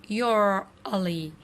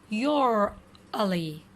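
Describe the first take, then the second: No difference in how they are said.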